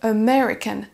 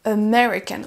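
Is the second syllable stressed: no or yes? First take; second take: yes; yes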